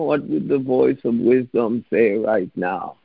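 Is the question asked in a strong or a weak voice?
weak. The question is asked weakly and without confidence. The asker doubts an answer will come. The speaker calls it wrong. "Don't go, oh"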